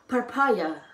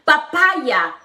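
First: Soft English-style papaya, said lower and quieter. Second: Said in the usual way. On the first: Shown as a demonstration. Showing viewers papaya in English, soft and quieter. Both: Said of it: "¿Cómo dice papaya en inglés?".

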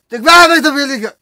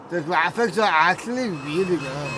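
First: Fast, loud excited gush; excited praise. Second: Said in the usual way. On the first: Real, not acted. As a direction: rattle it off excitedly.

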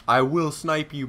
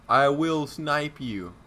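First: Said in the usual way. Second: Slow, drawn-out taunt; slow menacing threat. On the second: Real, not acted. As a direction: drag the threat out slowly. Threatening, slowed.

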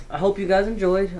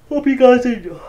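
First: Said in the usual way. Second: Higher, louder, hammed-up farewell; overblown sign-off. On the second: Real, not acted. Wrapping up the video for viewers, a loud hammed-up goodbye. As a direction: blurt the goodbye big and overdone. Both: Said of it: "Okay, hold on".

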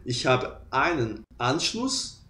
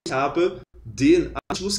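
First: "ich habe einen Anschluss" said slowly and softly; slow demo. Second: "den" lifted and stressed in "ich habe den Anschluss". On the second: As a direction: hit the word "den" with a slow rise. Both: Shown as a demonstration. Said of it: "você fala ali".

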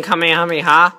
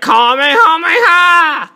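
First: Said in the usual way. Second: High, drawn-out battle cry; slow, raised imitation dub yell; mock anime attack shout. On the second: Shown as a demonstration. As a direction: shout it like a dubbed anime hero's special move. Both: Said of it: "like this, like".

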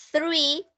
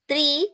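First: THREE with tongue between the teeth, blowing air; THREE opened with an airy TH. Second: TREE with a hard T, pitched up as a demo; TREE with T in place of TH. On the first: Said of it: "como si estuviera soplando un globito". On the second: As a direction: show TREE with a stopped T and no airflow. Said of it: "estás diciéndome árbol". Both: Shown as a demonstration.

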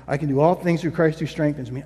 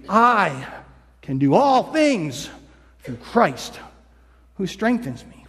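First: Quick, lower rattled-off repeat; rushed mantra. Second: Slowed, word-by-word recital; slow deliberate mantra. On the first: Person repeating the verse to push through, rattling it off fast. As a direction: reel it off like a worn-out mantra. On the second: Struggling person slowly repeating the verse to themselves. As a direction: spell each word out as if to convince yourself. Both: Retold or imitated. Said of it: "they just say this over".

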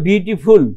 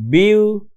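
First: Said in the usual way. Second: beautiful in three pieces, "বিউ", "টি", "ফুল", long pauses between; split into syllables. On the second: Shown as a demonstration. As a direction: draw beautiful out one syllable at a time. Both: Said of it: "তিনটে আছে".

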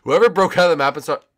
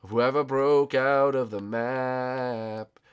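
First: Quick, indignant burst; rapid scolding; hurried accusation. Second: Drawn-out words, very slow; measured, slowed-down scolding; slow, deliberate accusation. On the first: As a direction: fire it off fast. First, hurried take. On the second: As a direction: stretch out each word. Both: Real, not acted.

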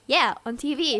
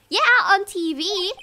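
First: Said in the usual way. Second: High, loud emphatic reply; excited girl voice. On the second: Acted. Maya answering Nick on the phone, excited. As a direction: say it keyed-up and insistent. First take in Maya's voice.

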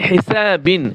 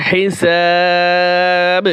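First: Said in the usual way. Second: হিসাব with a very long, level "aa" and a bouncing final b; stop with qalqalah. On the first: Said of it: "যখন ওয়াকফ করব". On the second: Shown as a demonstration. Teacher showing how to pause on the word, long held vowel. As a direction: stretch the last vowel of হিসাব, then bounce the b. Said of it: "যখন ওয়াকফ করব, তখন".

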